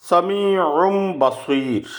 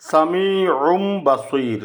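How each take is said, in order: The two takes are said the same way.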